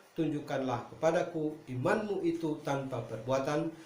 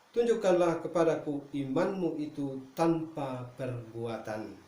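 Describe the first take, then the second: No difference in how they are said.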